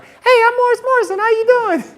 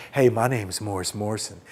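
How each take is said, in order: First: Very high squeaky goofy pickup voice; mock yourself in a silly falsetto; stupid-sounding suitor. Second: Low, soft, would-be smooth pickup voice; trying to be cool. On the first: Suitor as she probably heard him, sounding stupid. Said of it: "I probably sound so stupid". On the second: Retold or imitated. Grad student introducing himself to a girl on campus, trying to be cool. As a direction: play it all cool and low. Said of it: "trying to be all cool".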